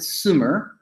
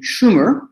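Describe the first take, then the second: First: The name is said the French way. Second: The name is said the Akkadian way. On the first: This is how a Frenchman pronounced it. "because he was a French guy, you know, he pronounced it Sumer" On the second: This is how the people of that region said it. "the Akkadian pronunciation"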